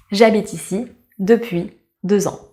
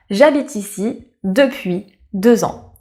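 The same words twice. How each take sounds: The two takes are said the same way.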